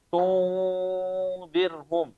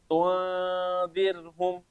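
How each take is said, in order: First: The nasal is thick, with rounded pouting lips. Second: The nasal is thin, with lips drawn back. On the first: The speaker calls it wrong. "jadi kayak tebel" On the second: The speaker calls it right. "tipis, langsung tarik bibirnya"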